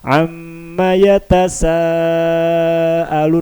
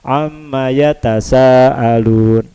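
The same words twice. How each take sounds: First: The long vowel is held longer. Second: The long vowel is held short. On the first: The speaker calls it right. "Bacaan apa harusnya?" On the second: The speaker calls it wrong. "dibaca ... Yang harusnya empat dibaca dua"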